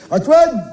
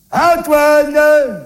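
First: Calling out. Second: Put-on a long, higher call to a child far off. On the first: Acted. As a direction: call the name out across the flat. Calling out for the child. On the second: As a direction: call it out into the distance, stretched. Calling again, further away.

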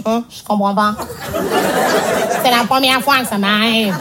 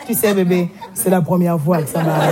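First: Embarrassed excuse. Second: Low, sheepish mumble of a man caught out; sheepish lover's excuse. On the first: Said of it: "sa première excuse, c'est toujours". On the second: A man whispering an excuse to his girlfriend in bed, low and sheepish. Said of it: "à la fin, a fait". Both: Retold or imitated.

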